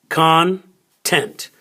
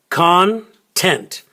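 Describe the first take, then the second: The two takes are said the same way.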